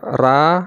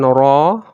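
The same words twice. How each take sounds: First: The r is light, with an unrounded thin mouth. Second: The r is heavy, with a rounded full mouth. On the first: "itu ringan ya. Itu namanya tipis" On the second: "kalau kita bulatkan ra, itu tebal artinya"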